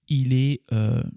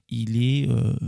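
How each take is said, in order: Both takes have the same delivery.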